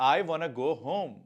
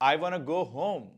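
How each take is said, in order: Both takes have the same delivery.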